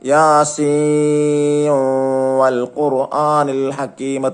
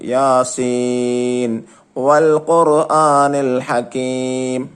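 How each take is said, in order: First: The n sound merges into the following w. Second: The n sound is pronounced clearly before w. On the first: The speaker calls it wrong. "എങ്ങനെ ഓതാൻ പാടില്ല? ... തെറ്റാണ്" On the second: The speaker calls it right. "ഇൽഹാർ ആയിട്ടാണ് ഓതേണ്ടത്"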